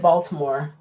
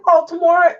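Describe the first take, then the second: First: Said in the usual way. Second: Baltimore as BAWL-more, two syllables; south-side pronunciation. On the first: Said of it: "I've always called it Baltimore". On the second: Retold or imitated. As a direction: Baltimore without the T, lifting like a question. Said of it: "they say Baltimore".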